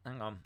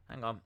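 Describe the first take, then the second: No difference in how they are said.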